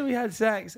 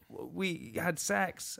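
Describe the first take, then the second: First: It is said clearly and audibly. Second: It is mumbled quietly and unclearly.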